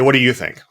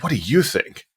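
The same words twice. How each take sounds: First: It sounds like a dismissive, closed statement. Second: It sounds like an open, genuine question. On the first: "the statement of" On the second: "a little different question"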